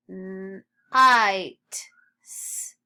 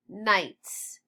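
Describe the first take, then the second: First: Night split as held N, loud long I, T, then a separate S-; sounded out. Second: Said in the usual way. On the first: Shown as a demonstration. Teacher models sounds before reading, sounded out. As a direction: sound out Night and S- one sound at a time. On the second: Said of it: "read nights".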